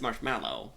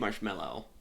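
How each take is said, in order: First: The second syllable sounds like 'mallow'. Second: The second syllable sounds like 'mellow'. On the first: This matches how the word is spelled. The speaker calls it right. "but it is marshmallow" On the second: This is how the speaker habitually says it. The speaker calls it wrong. "I always say marshmallow"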